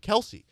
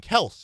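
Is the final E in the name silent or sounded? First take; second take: sounded; silent. First: The final E is pronounced. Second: The final E is silent. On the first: "everyone else does pronounce the E" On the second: "doesn't pronounce the E"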